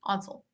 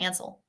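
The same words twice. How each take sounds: First: The first vowel sounds like 'on'. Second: The first vowel sounds like 'Anne'. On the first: The speaker calls it right. "Think of it like O N, like O N" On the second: The speaker calls it wrong. "modern day people they pronounce it Ansel. Like that's how you say it, and but it's not"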